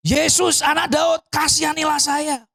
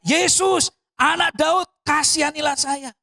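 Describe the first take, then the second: First: High, sustained imitation of shouting; retold louder shout. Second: High-pitched imitation of a calling plea; retold crying out. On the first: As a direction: cry out insistently for mercy in one push. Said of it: "teriak lebih kenceng lagi". (menirukan teriakan lebih kencang) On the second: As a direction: call out for mercy, not at full volume. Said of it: "dia teriak". (menirukan seruan memohon belas kasihan)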